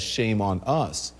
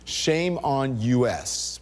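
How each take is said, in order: First: The last word is said as one short word. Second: The last word is spelled out as two letters. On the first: It blames ourselves. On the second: It blames the country.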